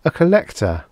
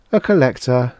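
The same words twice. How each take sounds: First: High, falling alien repeat. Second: Strange, higher alien tone. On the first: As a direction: repeat it as the monster. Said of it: "it repeated". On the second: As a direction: reveal yourself as the creature. Alien reveals itself. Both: Acted.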